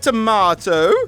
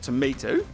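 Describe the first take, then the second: First: It is said in a British accent. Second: It is said in an American accent.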